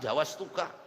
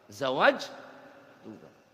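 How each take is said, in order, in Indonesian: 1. Bagian pertama berakhir dengan bunyi s. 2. Bagian pertama berakhir dengan bunyi j. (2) "zawaj pakai jim"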